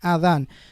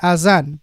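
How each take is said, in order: First: The middle consonant is a 'th' sound. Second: The middle consonant is a 'z' sound. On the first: The speaker calls it right. "this is pronounced as adhan" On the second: The speaker calls it wrong. "He said azan"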